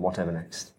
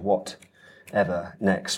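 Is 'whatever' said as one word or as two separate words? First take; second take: one word; two words. First: Whatever is said as one joined word. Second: What and ever are said as separate words. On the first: The title is made of two words. The speaker calls it wrong. "rather than" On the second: The title is made of three separate words. The speaker calls it right. "that's three words in the title"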